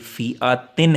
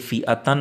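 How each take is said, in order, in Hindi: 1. आखिरी अक्षर का स्वर 'i' है। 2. आखिरी अक्षर का स्वर 'a' है। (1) "बल्कि फ़िआतिन है" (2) "ये फ़िआतन नहीं है"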